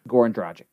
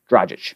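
First: Dragic as DRAH-gick with a hard g. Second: Dragic as DRAH-zhish, soft zh sound. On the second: Settling on the right way to say Dragic. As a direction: give Dragic a soft zh in the middle. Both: Shown as a demonstration. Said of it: "Oh, it's Dragic".

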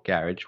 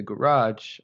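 First: "garage" as GARR-ij, stressed on the first syllable; "garage" the other way, GARR-ij; alternate pronunciation. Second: "garage" as guh-RAHZH, stressed on the second syllable; "garage" the everyday way, guh-RAHZH; usual pronunciation. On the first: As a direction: say "garage" to rhyme with "carriage". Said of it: "they say garage". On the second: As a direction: say "garage" with a long AH. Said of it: "have you ever heard anyone say for garage". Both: Shown as a demonstration.

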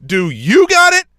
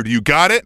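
First: High, loud, slow mimicry; taunting singsong throwback at the referee; mocking echo. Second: Imitated stern check; retold referee's challenge; referee's demand. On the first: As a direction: parrot it back in an exaggerated high voice. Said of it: "And I went". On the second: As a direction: press for an answer, only mildly raised. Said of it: "And he was like".

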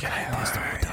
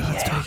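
First: Whispering. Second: Said in the usual way. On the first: Pretend. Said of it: "Why are we whispering?".

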